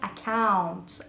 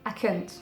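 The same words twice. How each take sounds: First: The second syllable has an 'ow' vowel. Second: The second syllable has an 'uh' vowel. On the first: The speaker calls it right. "Faut bien dire account, count, comme ça" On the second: The speaker calls it wrong. "Et surtout pas dire account"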